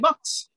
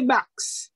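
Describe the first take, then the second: First: Box is said with a Trinidadian vowel. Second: Box is said with a Guyanese vowel, like backs.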